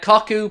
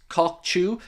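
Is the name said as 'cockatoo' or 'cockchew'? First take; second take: cockatoo; cockchew. First: The name is said like 'cockatoo'. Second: The name is said like 'cockchew'. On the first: The speaker calls it wrong. "cockatoo just sounds so much easier" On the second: The speaker calls it right. "pronounced cockchew"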